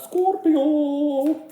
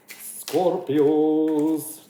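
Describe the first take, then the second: First: Scorpio squealed much higher and louder. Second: Drawn-out call. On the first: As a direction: Scorpio in a high, playful, sing-song call. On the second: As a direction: stretch Scorpios out slowly and louder, like calling a name. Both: Shown as a demonstration. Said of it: "I wanted to say it like that".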